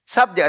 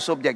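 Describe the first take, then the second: First: "Subjek" said "SAB-jek", with an a; first variant. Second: "subjek" said "SOB-jek", with a rounded vowel; second variant. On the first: Teacher offering two variants, "Subjek" first as "sab-jek". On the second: Teacher offering an alternative, "subjek" as "sob-jek". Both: Shown as a demonstration. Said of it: "Subjek atau subjek ya".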